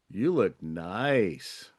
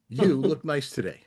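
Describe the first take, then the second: First: "You look nice" dragged out very slow and a bit low; creepy. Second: "You look nice today" said as a friendly, sincere compliment; just mean it kindly; simple compliment. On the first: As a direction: linger on every word like a creep. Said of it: "but now it's kinda creepy". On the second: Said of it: "Or it could be just a compliment". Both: Shown as a demonstration.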